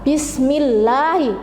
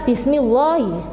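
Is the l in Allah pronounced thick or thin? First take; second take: thin; thick. First: The l sound in Allah is light and thin. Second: The l sound in Allah is heavy and thick. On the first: The speaker calls it right. "maka membacanya harus tipis" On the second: The speaker calls it wrong. "bukan Bismillahi"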